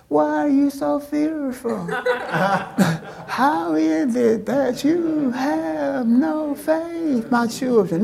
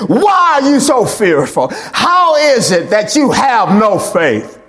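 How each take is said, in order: First: Soft, high, drawn-out coaxing; sweetly mild scolding, pitched up and stretched out; mock gentle Jesus. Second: Loud, emphatic preacher's rebuke; forceful rebuke. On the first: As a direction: croon it slowly, far too gently. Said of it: "he didn't say it like this". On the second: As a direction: thunder it as a stern reproach. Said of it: "He said it like that". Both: Shown as a demonstration.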